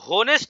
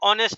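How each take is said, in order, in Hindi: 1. शब्द की शुरुआत में साफ़ h ध्वनि सुनाई देती है। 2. शब्द सीधे स्वर की ध्वनि से शुरू होता है। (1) "एच पढ़ा नहीं जाएगा, होनेस्ट नहीं होगा" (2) "ये ये ऑनेस्ट है तो ओ है ये असल में"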